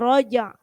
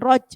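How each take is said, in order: First: The final j is released with an audible bounce. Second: The final j is clipped off with no bounce. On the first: The speaker calls it right. "tapi roja" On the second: The speaker calls it wrong. "Jadi bukan roj"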